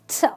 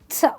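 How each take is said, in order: First: The t sound is said the English way. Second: The t sound is said the English way.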